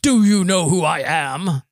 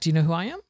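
First: It sounds like an arrogant, entitled demand. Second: It sounds like a sincere, genuine question.

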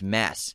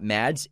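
First: No d sound is heard before the s. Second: A d sound is heard before the s. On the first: The speaker calls it right. "He pronounces it Mass" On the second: The speaker calls it wrong. "It's not Mads"

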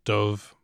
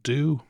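First: The word ends with a v sound. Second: The word ends on a vowel, no v. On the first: "as we call it in Dublin" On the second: "in Ulster Irish, it is more common to soften that BH"

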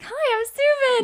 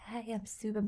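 First: It sounds bubbly and outgoing. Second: It sounds timid and shy.

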